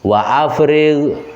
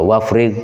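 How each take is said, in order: First: A glottal catch separates wa from afrigh. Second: Wa runs straight into frigh without a catch. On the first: The speaker calls it right. "itu hamzah hamzah kota" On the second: The speaker calls it wrong. "aja waca wafrig, nah, keliru"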